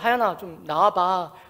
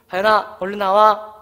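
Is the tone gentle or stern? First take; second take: gentle; stern. First: It is said in a gentle, ordinary voice. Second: It is said in a stern, firm voice.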